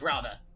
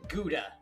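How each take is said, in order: First: It starts with a throaty, rasping sound. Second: It starts with a hard g sound. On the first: "It's Dutch, like me" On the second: "I forgot to pronounce it Gouda"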